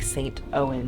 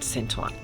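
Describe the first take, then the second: First: It is read as English, like the name Owen. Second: It is said with a French pronunciation. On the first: "really looks like Saint Owen or O U E N in English" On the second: "they pronounce it Saint Ouen"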